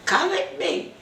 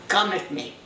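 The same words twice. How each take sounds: First: "Come with me." pitched much higher, pressing; insistent repeat. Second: Said in the usual way. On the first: Retold or imitated. Wife pulling her crying husband along, insistently. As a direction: say it again, urging him to follow.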